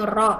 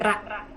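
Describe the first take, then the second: First: The letter name ends in a rounded 'o' vowel. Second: The letter name ends in an open 'a' vowel. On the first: The speaker calls it right. "Jadi vokalnya o ya" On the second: The speaker calls it wrong. "bukan ra"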